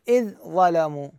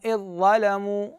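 First: The ذ is pronounced separately before the ظ. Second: The ذ merges into a doubled ظ sound. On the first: The speaker calls it wrong. "ما أقول إذ ظلموا" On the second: The speaker calls it right. "فندغم هذه الذال وين؟ بالضاء، فتصبح مشددة"

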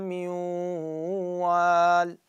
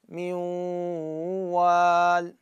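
No difference in how they are said.

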